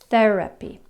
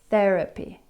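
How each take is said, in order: First: The th sound is soft, tongue between teeth. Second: The th sound is soft, tongue between teeth.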